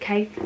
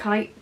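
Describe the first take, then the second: First: The vowel sounds like the one in bake. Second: The vowel sounds like the one in bite. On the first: The speaker calls it wrong. "I always call it cake" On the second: The speaker calls it right. "I'm pretty sure you cannot you pronounce it kite"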